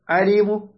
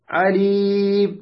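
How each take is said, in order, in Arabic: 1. يُسمع حرف u خفيف وقصير بعد الميم الأخيرة. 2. الكلمة تنتهي بالميم بدون حركة. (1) "هكذا روم" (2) "إشمام"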